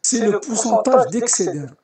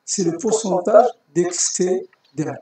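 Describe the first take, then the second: First: Slow and spelled out; slow, deliberate explanation. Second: Slower, stressing pourcentage; slow, deliberate repeat. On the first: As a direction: say it slowly for the class. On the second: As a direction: repeat it slowly, hitting pourcentage. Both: Shown as a demonstration.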